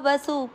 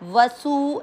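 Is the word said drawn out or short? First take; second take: short; drawn out. First: The word is said short without lengthening. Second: The word is drawn out with lengthened vowels. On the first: The speaker calls it right. "उसको खींचना नहीं है" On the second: The speaker calls it wrong. "वसु ऐसे नहीं करना"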